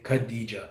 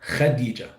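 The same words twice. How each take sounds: First: It starts with a plain English k sound. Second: It starts with a raspy throat kh sound. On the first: "Here in the U S or in English, we'll say Khadija, the K and H" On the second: "in Arabic, it's actually pronounced as... So there's a kh"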